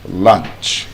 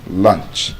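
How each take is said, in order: Both takes have the same delivery.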